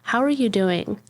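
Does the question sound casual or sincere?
sincere. It is said slowly and sincerely, with real interest. The asker genuinely wants to know. "Like, talk to me, you know?"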